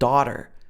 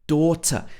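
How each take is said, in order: First: The t is tapped and it ends with r. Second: The t is fully pronounced, with no final r. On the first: "If this was an American pronunciation, it would be daughter" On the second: "she's pronounced the t in full"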